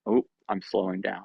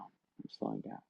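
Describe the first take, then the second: First: Said in the usual way. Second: Very soft, low trailing murmur; winding down. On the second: Acted. One of the herd calming after another feels with them, hushed and low. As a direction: drop right down in volume and pitch. Acting someone calming down, fading.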